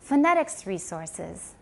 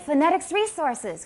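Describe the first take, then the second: First: It is said with calm, even emphasis. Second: It is said with excited, lively emphasis. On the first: The resources are nothing special. The speaker calls it right. "We say, listen carefully" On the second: The resources are something thrilling. The speaker calls it wrong. "You sound very excited"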